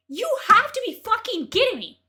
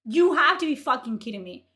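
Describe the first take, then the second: First: Higher, louder disbelief; outraged shout at the critic. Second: Said in the usual way. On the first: Real, not acted. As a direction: yell it in disbelief. Outraged repeat.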